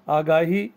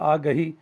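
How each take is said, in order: First: The vowel after the g is long. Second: The vowel after the g is short. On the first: "अलिफ के साथ" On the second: "अलिफ के बगैर"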